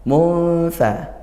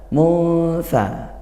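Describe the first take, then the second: The two takes are said the same way.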